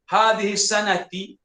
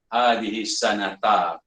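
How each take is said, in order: First: The last word ends with an 'i' vowel. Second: The last word ends with an 'a' vowel. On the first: The speaker calls it wrong. "Ada yang baca begitu" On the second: The speaker calls it right. "yang paling tepat"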